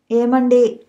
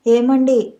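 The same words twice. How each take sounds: First: Gently calling out to him; a tender, coaxing call to her sulking husband; soft call. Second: Calling him a little more firmly, falling at the end; a bit louder. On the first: Wife gently calling her sulking husband in bed, softly. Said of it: "మృదువుగా పిలిచింది". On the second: Wife calling her silent husband again, a bit louder. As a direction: raise the call just slightly. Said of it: "ఈసారి మరి కాస్త గట్టిగా పిలిచింది". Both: A narrator's reading.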